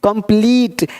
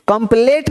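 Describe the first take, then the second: First: कंप्लीट said as "kum-pleet"; long ee vowel. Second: कंप्लीट said as "kum-plate"; wrong vowel. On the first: Teacher correcting the learners, long ee. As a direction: stretch the last syllable of कंप्लीट as "pleet". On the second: Teacher showing what not to say, "plate" ending. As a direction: put an "ay" in the last syllable of कंप्लीट. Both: Shown as a demonstration. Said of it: "कंप्लीट नहीं".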